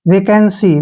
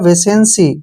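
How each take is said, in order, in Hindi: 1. दूसरा syllable k की आवाज़ से शुरू होता है। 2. दूसरा सिलेबल s की आवाज़ से शुरू होता है। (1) "इस तरीके से प्रोनाउंसिएशन करना है" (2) "गलत तरीके से प्रोनाउंसिएशन करेगा"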